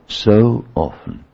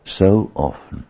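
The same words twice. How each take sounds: First: "So often" said slowly, each word weighed and stressed; slow emphatic repeat. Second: Said in the usual way. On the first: Shown as a demonstration. Preacher repeating to congregation, dwelling slowly on "So often".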